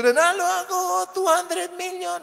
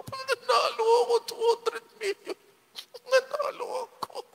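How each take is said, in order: First: Loud, high shout of victory; shouting winner. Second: Very high, tight squeal held back from a shout; bottled-up joy. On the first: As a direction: yell the lotto win for everyone to hear. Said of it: "Huwag kang sumigaw". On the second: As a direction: want to scream but keep it inside. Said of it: "gusto kong sumigaw". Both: Pretend.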